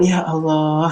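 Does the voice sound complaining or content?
content. It is said in a content, grateful tone. The person is accepting and thankful. The speaker calls it right. "Dengan nada itu menunjukkan bahwa dia sedang ridho sama Allah"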